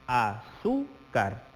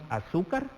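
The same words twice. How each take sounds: First: "azúcar" very slowly, a-zú-car; split into syllables. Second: Said in the usual way. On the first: Shown as a demonstration. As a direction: separate each syllable of "azúcar" with clear pauses. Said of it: "la división silábica". ("azúcar" muy despacio, sílaba por sílaba: a-zú-car) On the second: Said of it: "Tenemos azúcar".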